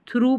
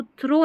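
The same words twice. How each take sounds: First: 'थ्रू' with a long OO; correct reading. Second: 'थ्रो' with O, pitched high; wrong reading. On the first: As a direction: model थ्रू ending in OO. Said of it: "थ्रू पढ़ते हैं". ('थ्रू', लंबे ऊ के साथ) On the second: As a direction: stress the mistaken O in थ्रो. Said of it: "अब इसको थ्रो नहीं". ('थ्रो', ओ वाला गलत उच्चारण) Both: Shown as a demonstration.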